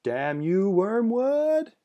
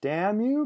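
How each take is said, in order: First: Raised, high cursing shout at the ceiling; half shout. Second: High, loud cut-off curse; cursed shout. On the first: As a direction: shake your fist and half shout. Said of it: "half shouted while shaking her fist". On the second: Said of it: "her second cursed shout was truncated". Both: Acted.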